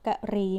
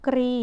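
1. อ่านเป็นสองพยางค์แยกกัน 2. อ่านเป็นหนึ่งพยางค์ มีพยัญชนะควบกล้ำ (1) "แล้วก็อ่านว่ากะรี" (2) "อ่านว่ากรี"

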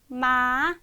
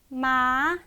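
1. 음이 처음부터 끝까지 꾸준히 올라갑니다. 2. 음이 처음부터 끝까지 꾸준히 올라갑니다.

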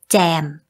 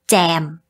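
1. Từ này bắt đầu bằng âm z. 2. Từ này bắt đầu bằng âm z.

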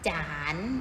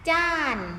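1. พยางค์นี้ออกเสียงด้วยเสียงจัตวา 2. พยางค์นี้ออกเสียงด้วยเสียงโท (1) "รูปจัตวาก็เป็นเสียงจัตวา" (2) "รูปโทเสียงโท"

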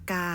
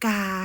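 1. คำว่า "กา" ออกเสียงวรรณยุกต์เอก 2. คำว่า "กา" ออกเสียงวรรณยุกต์ตรี (1) "ไม่เอก" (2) "ไม่ตี"

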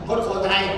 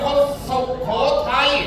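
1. พยางค์ su ถูกตัดทิ้งจากคำนี้ 2. พยางค์ su ออกเสียงชัดเจนในคำนี้ (1) "พูดจังหวัดตัวเองพูดไม่ชัดไม่เต็ม" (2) "คุณต้องพูดว่าคุณเป็นคนสุโขทัย"

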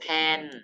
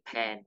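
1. พยางค์นี้เป็นเสียงโท 2. พยางค์นี้เป็นเสียงเอก (1) "ไม้โท" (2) "ไม้เอก"

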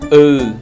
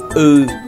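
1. Nguyên âm này được đọc kéo dài. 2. Nguyên âm này được đọc kéo dài.

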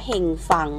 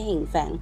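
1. พยางค์ที่สองใช้สระ 'a' เสียงเปิด 2. พยางค์ที่สองใช้สระ 'ae' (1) "อ่านว่าเฮงฟัง" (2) "ไม่ใช่เฮงแฟง"

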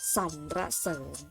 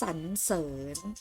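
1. อ่านโดยแทรกพยางค์ 'ra' เพิ่มเข้ามา 2. อ่านสองพยางค์ ไม่มี 'ra' ตรงกลาง (1) "แต่มีเสียงระตรงกลางค่ะ" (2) "อ่านเป็นเสียงอะแล้วมีตัวสะกดอยู่ในมาตราแม่กล"

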